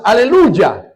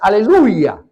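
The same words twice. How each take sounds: First: The word is said with a Spanish accent. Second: The word is said with a French accent. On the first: "Y los hispanos" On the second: "tanto el haitiano como el francés"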